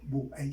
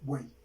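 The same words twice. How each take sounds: First: The vowels are split into two syllables. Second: The vowels are joined in one syllable. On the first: The speaker calls it wrong. "yo no digo buey" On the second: The speaker calls it right. "sino buey"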